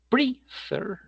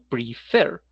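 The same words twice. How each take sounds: First: The stress is on the first syllable. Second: The stress is on the last syllable. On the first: The speaker calls it wrong. "no es prefer, eso no es" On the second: The speaker calls it right. "sino prefer. Como el acento va en la última sílaba"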